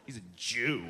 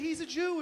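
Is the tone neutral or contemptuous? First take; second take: contemptuous; neutral. First: It is said with a sneering, contemptuous tone. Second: It is said in a neutral, inoffensive tone.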